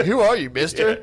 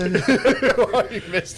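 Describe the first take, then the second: First: Imitating bartender. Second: Mock bartender. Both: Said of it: "the fifty-year-old bartender's like".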